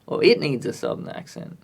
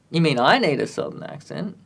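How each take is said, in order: First: "it" stressed, then falling to the end. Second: Questioning stress on "I", rising at the end. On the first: Offers the song as alternative, stressing "it". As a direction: set "it" apart as the alternative. Corrects I to it. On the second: Asks who needs the accent, stressing "I". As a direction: lean on "I" as a query. Sets himself against the song. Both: Real, not acted.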